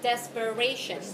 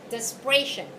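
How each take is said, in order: First: It is pronounced like the adjective 'desperate'. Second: It is pronounced unlike the adjective 'desperate'. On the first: The speaker calls it wrong. "it's not desperation, like the way you pronounce the adjective" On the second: The speaker calls it right. "but it is desperation"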